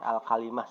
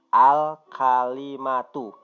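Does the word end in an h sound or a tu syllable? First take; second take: h sound; tu syllable. First: The word ends in a stopped h sound. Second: The word ends with a full tu syllable. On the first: "Jadi al-kalimah saja bacanya" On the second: "sebetulnya bacanya al-kalimatu"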